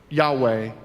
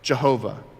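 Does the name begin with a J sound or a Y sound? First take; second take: Y sound; J sound. First: It begins with a Y sound and has a W. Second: It begins with a J sound and has a V. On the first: This is the Hebrew form of the name. "It's the Hebrew pronunciation of those four consonants" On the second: This is the Latinized form of the name. "Latinize the pronunciation"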